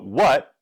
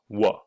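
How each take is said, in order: First: The word is said fully with a final t. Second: The word is reduced to wha with no t.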